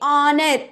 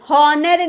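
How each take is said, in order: First: It begins with a vowel sound. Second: It begins with an h sound. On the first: The speaker calls it right. "एच चुप है, silent है" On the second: The speaker calls it wrong. "हॉनर नहीं बोलेंगे"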